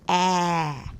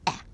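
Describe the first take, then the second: First: The vowel is long and drawn out. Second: The vowel is short and clipped. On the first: The speaker calls it right. "We want them to say ah. ... draw out that sound" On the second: The speaker calls it wrong. "we want to encourage the children not to say ah"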